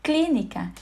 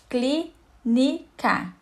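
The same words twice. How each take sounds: First: Said in the usual way. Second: "clínica" very slowly, as three separate syllables. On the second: Shown as a demonstration. Teacher finding the antepenultimate syllable, "clínica" split syllable by syllable. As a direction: break "clínica" apart, a pause after each syllable.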